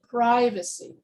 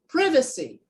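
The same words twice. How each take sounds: First: It is said with an American pronunciation. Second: It is said with a British pronunciation. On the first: "in American English, I would say" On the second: "in British English, I would say"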